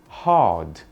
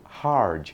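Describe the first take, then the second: First: The R is dropped, British style. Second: The R is pronounced, American style.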